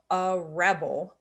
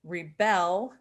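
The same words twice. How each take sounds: First: Rebel stressed on the first syllable, slowly; slow REBel, first syllable punched. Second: Rebel stressed on the second syllable, loudly; reBEL, second syllable punched loud. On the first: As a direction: say rebel as REB-ul. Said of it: "is a noun". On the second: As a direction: say rebel as ree-BELL. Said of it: "is a verb". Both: Shown as a demonstration.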